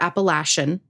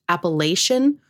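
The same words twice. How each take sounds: First: The third syllable sounds like 'latch'. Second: The third syllable sounds like 'lay'. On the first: "Lay or latch being the difference" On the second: "Lay or latch being the difference"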